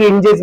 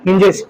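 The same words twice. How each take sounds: First: हिंजेस said without the h sound, like "injes"; wrong pronunciation. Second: हिंजेस said with a clear h at the start, "hinjes"; correct pronunciation. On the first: Teacher imitating how students say हिंजेस, without h. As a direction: drop the h at the start of हिंजेस. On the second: Teacher correcting students, saying हिंजेस with a clear h. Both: Shown as a demonstration. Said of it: "हिंजेस नहीं, हिंजेस".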